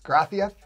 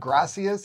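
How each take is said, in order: First: The c is pronounced like th. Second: The c is pronounced like an s.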